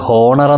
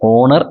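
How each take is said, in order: First: The word begins with an h sound. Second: The word begins with a vowel sound. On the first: The speaker calls it wrong. "ഇത് ഹോണർ എന്നല്ല വായിക്കുന്നത്" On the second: The speaker calls it right. "H silent ആണ്, നമ്മളത് പറയില്ല"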